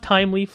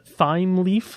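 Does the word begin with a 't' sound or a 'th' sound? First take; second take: t; th. First: The word begins with a plain 't' sound. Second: The word begins with a 'th' sound. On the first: "like time" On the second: "like T H is the, you know, whatever, like the th sound"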